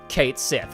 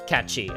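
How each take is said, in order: First: It is said like 'Kate Sith', ending in 'th'. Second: It is said like 'Catchy', ending in 'ee'. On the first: The speaker calls it wrong. "as everybody incorrectly pronounced it" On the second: The speaker calls it right. "the correct pronunciation of this is Catchy"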